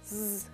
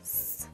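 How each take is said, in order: First: The sound is said aloud with voice. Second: The sound is whispered without voice. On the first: "произнесите звук «з»" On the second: "произнесите его шепотом"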